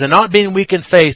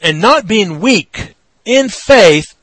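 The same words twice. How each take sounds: First: The pause comes after the word faith. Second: The pause comes after the word weak.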